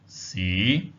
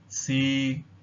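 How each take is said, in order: First: The pitch starts lowest and rises slightly. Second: The pitch stays level at mid height. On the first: The word means city. "starts at the lowest possible point and then rises upwards" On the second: The word means to test. "the mid-level tone"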